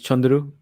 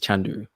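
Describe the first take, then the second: First: The name is said with its original pronunciation. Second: The name is said with an English pronunciation. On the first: "his actual name is Chandru" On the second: "the English pronunciation is Chandru"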